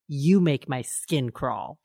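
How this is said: It is said coldly and seriously. The speaker is truly disgusted and hurtful. "this dead silent moment when she looks at him from across the room"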